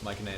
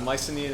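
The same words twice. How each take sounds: First: It is pronounced closer to the original Greek. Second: It is pronounced the anglicized English way. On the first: "if you're being correct" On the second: "is the anglicized version of it"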